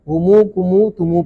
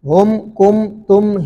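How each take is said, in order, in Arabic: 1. تنتهي كل كلمة بحرف المد الواو الممدود. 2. تنتهي كل كلمة بصوت الميم الساكنة. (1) "हुमू कुमू तुमू पढ़ेंगे उस वक्त जब इसके बाद कोई हर्फ साकिन ना हो" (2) "ये हम मीम जमा है ना"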